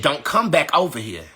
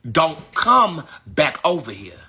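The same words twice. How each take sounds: First: Said in the usual way. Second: "Don't come back over here" slowed, with a break after "come"; slow, separated "Don't come back over here"; deliberate warning. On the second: Real, not acted. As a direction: lean hard on "come", then pause. Warning repeated slowly for force.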